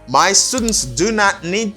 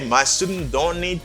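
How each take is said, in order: First: "Do not" is said as two full words. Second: "Do not" is contracted to a single syllable.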